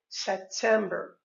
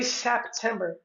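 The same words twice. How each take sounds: First: No P sound is heard before the T. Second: A P sound is heard before the T. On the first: The speaker calls it right. "we say September" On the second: The speaker calls it wrong. "we don't say September"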